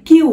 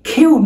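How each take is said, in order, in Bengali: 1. প্রথম ব্যঞ্জনটি অল্পপ্রাণ। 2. প্রথম ব্যঞ্জনটি মহাপ্রাণ। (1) "নট কিউ" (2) "এটার উচ্চারণ কেমন হবে খিউ"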